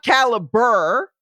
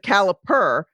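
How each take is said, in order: First: The word is said with a B sound. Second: The word is said with a P sound. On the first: The speaker calls it wrong. "not caliber with a B" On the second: The speaker calls it right. "it's the caliper"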